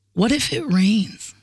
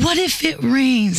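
First: Slow, measured question; retold doubting question. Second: Slow, higher patronizing question; mock motherly condescension. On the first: Retelling friend's hurtful question, slow and doubting. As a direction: put it slowly, letting it hang. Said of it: "this is the one that stabbed me". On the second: Mimicking friend like mother to six-year-old, condescending. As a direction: draw it out as if to a small child. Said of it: "Like a mother to a six-year-old child".

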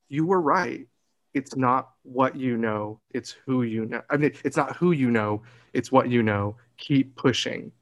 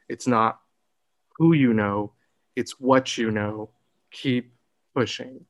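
First: Said in the usual way. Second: Deliberate, emphatic. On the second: Retold or imitated. Telling younger self the lesson, deliberate and emphatic. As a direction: land each phrase separately and firmly. Repeats the advice deliberately, phrase by phrase.

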